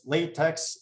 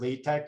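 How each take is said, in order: First: It sounds like the word for rubber material. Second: It sounds unlike the word for rubber material. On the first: The speaker calls it wrong. "you might think it's latex" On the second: The speaker calls it right. "but in math, we call this either LaTeX or LaTeX"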